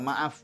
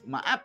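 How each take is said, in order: First: The word ends with an F sound. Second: The word ends with a P sound. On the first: The speaker calls it right. "jadi nggak maaf" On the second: The speaker calls it wrong. "maaf gitu"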